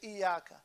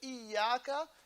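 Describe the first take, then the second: First: The y sound is short and single. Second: The y sound is held long and doubled. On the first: It means light. The speaker calls it wrong. "you leave a shadda on iya" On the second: It means only you. The speaker calls it right. "Instead of saying iyaka"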